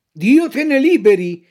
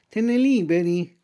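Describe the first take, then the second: First: Loud mock-indignant fox; offended fox. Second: A hint of the cat echoing. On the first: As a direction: recoil in feigned outrage. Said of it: "chiamandosi offesa". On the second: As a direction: repeat it flatly. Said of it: "ripeté il gatto".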